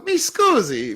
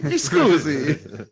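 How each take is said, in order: First: Mi scusi squeaked much higher in mock Italian. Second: Mi scusi drawn out slowly at a normal pitch; slow Italian mi scusi. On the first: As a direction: pitch mi scusi way up like a startled Italian. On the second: Retold or imitated. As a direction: let mi scusi trail out slowly. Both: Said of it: "He goes".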